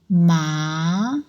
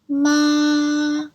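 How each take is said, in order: First: The pitch rises from mid to high. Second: The pitch stays high and level. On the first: "the second tone is rising tone" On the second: "high and it's like a straight line"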